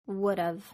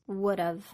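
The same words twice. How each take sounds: First: Have is reduced and joined to would. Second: Have is reduced and joined to would.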